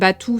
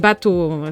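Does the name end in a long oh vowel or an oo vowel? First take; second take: oo; long oh. First: The name ends with an oo vowel. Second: The name ends with a long oh vowel. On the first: The speaker calls it wrong. "Ils prononcent jamais batou" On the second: The speaker calls it right. "c'est bateau, son vrai nom"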